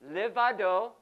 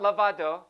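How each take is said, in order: First: The first vowel is an 'eh' sound. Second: The first vowel is an 'ah' sound. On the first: The speaker calls it right. "Levado, not lavado" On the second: The speaker calls it wrong. "not lavado"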